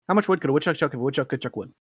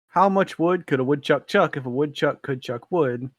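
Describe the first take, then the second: First: It is read quickly, at a rushed speed. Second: It is read at a normal, unhurried speed. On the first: The speaker calls it right. "you have to read through it again quickly" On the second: The speaker calls it wrong. "If you did not read this fast the first time"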